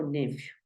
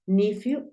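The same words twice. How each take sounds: First: "nephew" said NEF-yu; short E in the first syllable of "nephew". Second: "nephew" said NIF-yu; short I in the first syllable of "nephew". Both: Shown as a demonstration. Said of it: "Lo puedes escuchar de las dos maneras".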